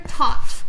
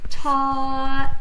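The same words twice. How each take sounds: First: Breathy unvoiced "Taught"; whispered "Taught". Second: Said in the usual way. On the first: Shown as a demonstration. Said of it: "Put it together". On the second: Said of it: "So put it together".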